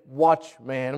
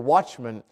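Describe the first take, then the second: First: The last syllable is a full 'man'. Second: The last syllable is weak and reduced. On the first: It matches the phrase strong man. "we usually don't say watchman" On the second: This is the usual everyday way. "we'd say watchman"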